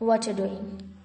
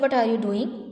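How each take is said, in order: First: 'What are you' is run together as 'whatcha'. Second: Each word of 'what are you' is said separately. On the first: "native speakers इसी तरह से ही बोलते हैं" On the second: "के बजाय"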